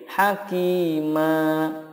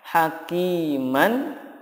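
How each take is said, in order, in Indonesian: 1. Kata ini berakhir dengan vokal panjang, tanpa n. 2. Kata ini berakhir dengan vokal pendek dan n. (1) "ketika wakof menjadi hakima, ma-nya dibaca panjang" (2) "Contohnya hakiman"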